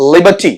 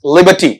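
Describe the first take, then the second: First: The r sound is silent. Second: The same.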